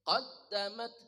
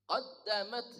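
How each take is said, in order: Both takes have the same delivery.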